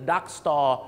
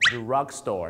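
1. เสียง r หลัง d ไม่ออกเสียง 2. เสียง r หลัง d ออกเสียงชัดเจน

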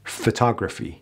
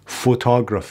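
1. مصوت بدون تکیه یک شوای ضعیف است. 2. مصوت بدون تکیه یک مصوت کامل و قوی است. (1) "میگیم" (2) "اینا غلطه. اینا تلفظ در واقع فارسیه"

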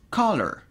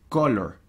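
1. La c al inicio es fuerte y marcada. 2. La c al inicio es suave y débil. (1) "Este sonido de la C es un poquito marcado" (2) "No es color"

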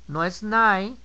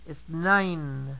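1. Se omite el sonido final de la N. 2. El sonido final de la N se pronuncia claramente. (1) "No se les olvide pronunciar la N" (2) "la segunda N en nine"

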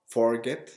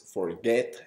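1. El acento está en la primera sílaba. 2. El acento está en la segunda sílaba. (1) "no forget" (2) "es forget, y es el que enfatizo"

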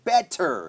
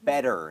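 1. พยัญชนะตัวกลางเป็นเสียง T ที่ชัดเจน 2. พยัญชนะตัวกลางเป็นเสียงคล้าย D แบบเคาะเบาๆ (1) "นอกจากว่าอดัมจะเน้นมากๆนะครับ" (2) "ส่วนใหญ่แล้วก็จะพูด"

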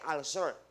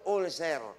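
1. Binibigkas ito sa standard English. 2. Binibigkas ito sa estilong Filipino. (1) "ang tawag po ay ulcer" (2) "sa Pilipinas, ang pronunciation"

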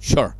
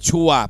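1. พูดด้วยสำเนียงอังกฤษแท้ครับ 2. พูดด้วยสำเนียงไทยครับ (1) "เขาพูดว่า" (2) "ไม่พูดว่า"

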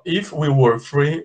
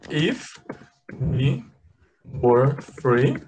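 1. A frase é dita em ritmo mais rápido. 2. A frase é dita em ritmo mais lento.

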